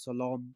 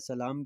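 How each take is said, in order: First: The L sound is dark and heavy. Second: The L sound is light and thin. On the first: "लाम को मोटा करके पढ़ा जाता है" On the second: "सलाम की जगह पर"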